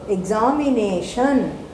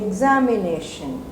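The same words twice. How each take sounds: First: The stress is on the third syllable. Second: The stress is on the first syllable. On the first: "If I am a Punjabi, I tend to say examination. So where is the stress? On the third syllable" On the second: "if I'm a Malayali, I say examination. So where is the emphasis? On the air syllable"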